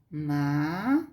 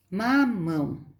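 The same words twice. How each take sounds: First: "mamão" split into ma, mão with a long pause; syllable by syllable. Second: Said in the usual way. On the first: Shown as a demonstration. Teacher finding the strong syllable for pupils, syllable by syllable. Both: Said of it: "A última sílaba é a forte".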